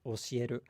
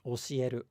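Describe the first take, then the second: First: The pitch stays level across the word. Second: The same.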